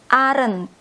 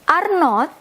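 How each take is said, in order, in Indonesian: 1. Diucapkan sebagai satu kata yang disingkat. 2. Diucapkan sebagai dua kata penuh yang terpisah. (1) "Ini dibacanya aren't" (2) "versi panjang, jadi dua kata"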